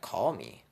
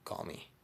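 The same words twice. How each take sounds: First: Mock baffled repeat of CALL ME; puzzled echo. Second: Quiet, offhand invitation; cool flirty aside. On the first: Admirer questioning the flirt's odd request, puzzled. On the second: Retold or imitated. Storyteller flirting with an admirer, soft and cool. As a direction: toss out CALL ME softly as a statement. Flirting, then her puzzled echo.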